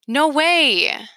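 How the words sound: It sounds like a reaction to good news.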